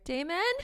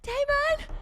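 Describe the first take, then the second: First: The name is called fairly softly. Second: The name is called loudly.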